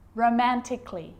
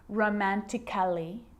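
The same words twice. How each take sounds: First: No extra vowel is sounded before the ending. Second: An extra vowel is sounded before the ending. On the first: The speaker calls it right. "Cut the A out. Get rid of it" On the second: The speaker calls it wrong. "So I'm not pronouncing"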